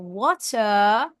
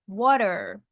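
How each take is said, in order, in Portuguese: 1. É dito com sotaque britânico. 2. É dito com sotaque americano. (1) "O britânico fala water" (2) "o americano vai falar water"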